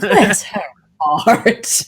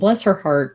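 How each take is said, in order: First: It is said in a mocking, condescending tone. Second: It is said in a warm, sympathetic tone. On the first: The speaker is passing judgment on her. "Totally different kettle of fish" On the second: The speaker genuinely feels sorry for her. "that means like I'm actually feeling, I'm expressing sympathy"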